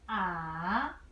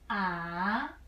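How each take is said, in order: First: The pitch starts low, dips, then rises. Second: The same.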